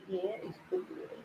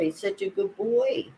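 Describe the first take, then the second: First: Much higher, very soft cooing. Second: Said in the usual way. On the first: Real, not acted. Cooing to her cat.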